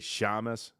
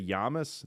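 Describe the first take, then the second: First: The word starts with a sh sound. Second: The word starts with a y sound. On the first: "they'll say shamas" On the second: "instead of saying like"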